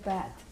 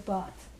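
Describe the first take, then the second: First: The word is said in an American accent. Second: The word is said in a non-American accent. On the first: "Americans will say path" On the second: "We say path"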